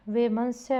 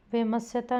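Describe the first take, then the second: First: Said in the usual way. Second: वैमत्स्यता with no n and an added "ta"; wrong word form. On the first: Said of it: "वैमनस्य होगा". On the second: Shown as a demonstration. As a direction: drop the n and end on "ta" in वैमत्स्यता. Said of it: "वैमत्स्यता नहीं होगा". (वैमत्स्यता का गलत रूप, बिना "न")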